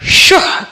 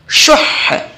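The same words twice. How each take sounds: First: The final h is cut short and plain. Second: The final h is held with doubled emphasis. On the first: The speaker calls it wrong. "सिर्फ शुह कह के वक्फ करने से गलत वक्फ है" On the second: The speaker calls it right. "बल्कि यहां पे अनफुसुश शुह कहेंगे"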